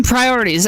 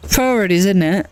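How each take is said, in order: First: Said in the usual way. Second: A bad try at an English accent on Priorities; English accent attempt. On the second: Streamer to chat, admitting she can't do an English accent. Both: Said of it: "I can't do an English accent".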